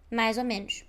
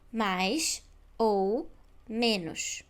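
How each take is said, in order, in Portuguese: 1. As palavras saem juntas, com uma ligação em z. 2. Cada palavra é dita separadamente, com pausas entre elas. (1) "a maneira natural é dizer tudo isto junto" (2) "De forma robótica, como um robô"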